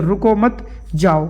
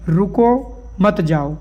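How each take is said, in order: First: रुको मत run together, a comma pause, then जाओ; pause after मत. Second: रुको drawn out, a comma pause, then मत जाओ together; pause after रुको. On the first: Teacher moving the comma to change the meaning, pause after मत. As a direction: join रुको मत, break before जाओ. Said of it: "यहाँ पे लगा दूँ". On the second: Teacher showing a comma that means stay here, pause after रुको. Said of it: "यानी यहीं ठहर जाओ". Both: Shown as a demonstration.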